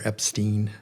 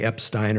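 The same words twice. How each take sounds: First: EPSTEIN ending like "steen", rhymes with seen; variant pronunciation. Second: EPSTEIN ending like "stine", rhymes with fine; variant pronunciation. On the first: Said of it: "you could say Epstein or Epstein". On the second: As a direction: say Epstein as EP-styne. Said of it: "just like you could say". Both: Shown as a demonstration.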